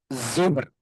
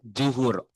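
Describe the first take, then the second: First: The word starts with a z sound. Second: The word starts with a j sound. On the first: The speaker calls it right. "Yang betul zuhur" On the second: The speaker calls it wrong. "telinga Indonesia juhur"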